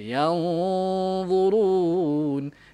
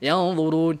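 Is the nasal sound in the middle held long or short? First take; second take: long; short. First: The nasal sound is held longer, unhurried. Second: The nasal sound is rushed and cut short. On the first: The speaker calls it right. "bagi masa" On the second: The speaker calls it wrong. "jangan laju, jangan"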